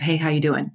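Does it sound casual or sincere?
casual. It is said as a quick casual greeting.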